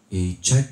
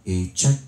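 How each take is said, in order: The two takes are said the same way.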